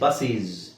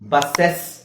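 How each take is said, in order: First: The ending is pronounced with a long 'ee' vowel. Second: The ending is pronounced with an 'e' vowel. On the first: "ಬಸ್ಸೀಸ್ ಅಂತ ಹೇಳಂಗಿಲ್ಲ" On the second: "ಬಸ್ಸೆಸ್ ಅಂತ ಹೇಳ್ತೀವ? ಇಲ್ಲ"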